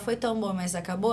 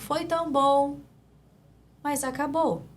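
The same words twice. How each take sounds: First: It is said as one unbroken block. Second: It is said broken up into separate pieces.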